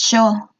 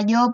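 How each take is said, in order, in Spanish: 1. Se dice con acento argentino. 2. Se dice con acento estándar.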